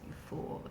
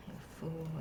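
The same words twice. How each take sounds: First: Hushed self-scolding whisper. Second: Said in the usual way. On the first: Acted. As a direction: whisper it to yourself.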